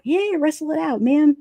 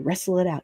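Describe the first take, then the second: First: High-pitched mock cheer; pitched-up, playful urging; playful egging-on. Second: Said in the usual way. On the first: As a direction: egg them on like a wrestling fan. Eggs creators on, repeating it.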